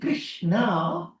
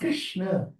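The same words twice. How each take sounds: First: The word ends in a long final vowel. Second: The word ends in a short final vowel. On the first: It refers to the female consort. "you're talking about the consort" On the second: It refers to the male god. "He's Krishna"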